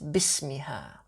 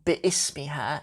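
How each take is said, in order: First: Bi links straight into ismiha without a stop. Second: A glottal stop separates bi from ismiha. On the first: The speaker calls it right. "It has a hamzat wasl" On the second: The speaker calls it wrong. "as if it has a hamzat qata'a on it"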